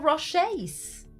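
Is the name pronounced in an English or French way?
French. The name is pronounced the French way.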